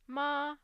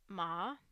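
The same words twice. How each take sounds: First: The pitch stays high and level. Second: The pitch starts low and then rises. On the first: "a high and flat F zero" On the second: "the rise would sound something like"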